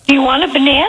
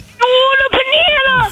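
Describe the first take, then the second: First: It is said in a calm, mild way. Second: It is said in a forceful, aggressive way.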